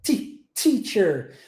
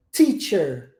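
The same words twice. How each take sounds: First: Ti-, teacher stretched out slowly; slow English teacher. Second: Teacher with a crisp English t. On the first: Teacher slowing down the word, slow teacher. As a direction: break it down, tongue behind the teeth. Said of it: "Você encosta a língua atrás do seu dente". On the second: Teacher modelling the word, teacher with a clean t. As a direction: hit the t sharp, not ti. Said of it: "A pronúncia do T em inglês é". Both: Shown as a demonstration.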